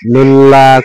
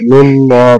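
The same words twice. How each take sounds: First: The L in 'llah' is light and thin. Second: The L in 'llah' is heavy and full. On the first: The speaker calls it wrong. "করলে কিন্তু হবে না" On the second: The speaker calls it right. "পুরো হবে"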